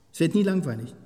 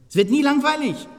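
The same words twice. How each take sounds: First: Said in the usual way. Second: "nie" high and loud, falling; stress on nie. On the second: Real, not acted. Repeated for emphasis.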